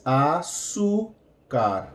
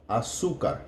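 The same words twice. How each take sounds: First: Azúcar drawn out slowly, z said as s: a-su-car; slow pronunciation demo. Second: Said in the usual way. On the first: Shown as a demonstration. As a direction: stretch Azúcar slowly with an s sound. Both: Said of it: "the Z is going to sound like an S".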